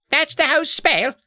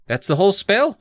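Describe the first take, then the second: First: Put-on very high British boy's voice; incredulous, squeaky mock-British question; put-on British accent. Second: Raised, lightly acted question; questioning boy. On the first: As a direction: redo it in a hammed-up British accent. Redoes Edward in character accent. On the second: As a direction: ask it as a mildly puzzled character. First try at Edward's question.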